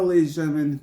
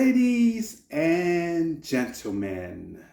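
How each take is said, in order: First: It is said in his own normal voice. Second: It is said in a put-on villain voice. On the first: "I'm not gonna do the voice" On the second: "I was trying to do the Heath Ledger Joker voice"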